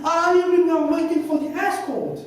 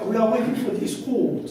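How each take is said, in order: First: High, loud realisation with "escort" as ES-kort; first-syllable stress. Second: "escort" mispronounced as "skort", stress on the last syllable; wrong pronunciation. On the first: Englishman finally understanding his translator, "escort" stressed as ES-kort. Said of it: "instead of stressing on the first syllable". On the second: Translator answering a waiting Englishman, mispronounced "escort" as es-KORT. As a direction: say "escort" as "es-KORT", first vowel swallowed. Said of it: "the wrong pronunciation". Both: Retold or imitated.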